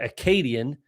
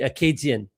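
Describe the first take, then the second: First: It is said with an English accent. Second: It is said with a French accent.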